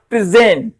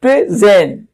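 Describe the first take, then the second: First: प्रेजेंट as a verb, stress on ZENT; प्रेजेंट with the weight on its second syllable. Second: प्रेजेंट as a noun, stress on PRE; प्रेजेंट split in two, first part stressed; stress on first syllable. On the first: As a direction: go light on the first syllable of प्रेजेंट, "pre-ZENT". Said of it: "इस पे कम stress दिया जाएगा". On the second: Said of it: "पहले वाले पर stress दिया जाएगा". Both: Shown as a demonstration.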